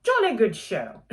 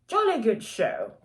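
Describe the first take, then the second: First: Louder mock British cheer; British accent. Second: Hammed-up British accent, higher. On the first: Reviewer asking viewers to work with her, terrible British accent. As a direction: repeat the bad British accent with gusto. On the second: Reviewer praising the book to viewers, terrible British accent. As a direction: cheer it in a deliberately bad British accent. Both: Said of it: "that was a terrible British accent".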